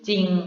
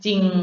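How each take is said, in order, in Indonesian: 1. Kata ini diawali dengan satu konsonan tunggal. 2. Kata ini diawali dengan satu konsonan tunggal.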